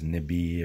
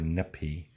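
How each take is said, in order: First: The middle consonant is a b sound. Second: The middle consonant is a p sound. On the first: "Can be pronounced as nibi or nipi. The P and B is just a flow direction" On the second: "Can be pronounced as nibi or nipi. The P and B is just a flow direction"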